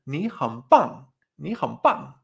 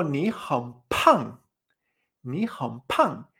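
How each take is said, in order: First: Slow "ni han pan", no puff on the falling final "pan"; unaspirated B. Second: Very slow "ni han pan", strong puff on the falling final "pan"; aspirated P. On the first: Teacher showing the compliment tú muy máquina, slow unaspirated demonstration. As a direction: say "ni han pan" slowly, keeping air back on p. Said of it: "pan con cuarto tono y con B". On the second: Teacher showing the insult tú eres muy gordo, slow aspirated demonstration. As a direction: say "ni han pan" slowly, bursting air on p. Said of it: "sacar o no sacar aire". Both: Shown as a demonstration.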